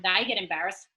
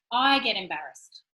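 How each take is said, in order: First: "they" stressed, pointing at others. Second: "I" hit hard, falling away after; stress on I. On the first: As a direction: put the contrast on "they". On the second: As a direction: punch the word "I" in contrast. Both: Shown as a demonstration. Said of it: "I don't mean I've been challenged like".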